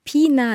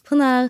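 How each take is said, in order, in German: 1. Der erste Vokal ist ein einfaches deutsches 'ee'. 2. Der erste Vokal ist der türkische punktlose i-Laut. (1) "es ist nicht Pina" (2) "das ist ein I ohne Punkt"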